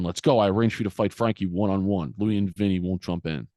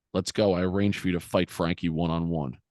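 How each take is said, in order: First: Imitating a pressing father, a touch of force; insistent retold order. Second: Said in the usual way. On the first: Father ordering son to go fight Frankie, insistent retelling. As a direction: press the order, mildly voiced. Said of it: "And he says it again". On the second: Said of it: "and he goes".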